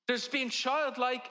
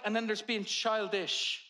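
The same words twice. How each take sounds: First: Put-on slow, with childlike lifted and leaned on; stress on childlike. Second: Put-on slow and level, childish set against the first; stress on childish. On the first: Preacher contrasting childlike, childlike drawn out. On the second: Preacher setting childish against childlike, slowly. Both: Shown as a demonstration.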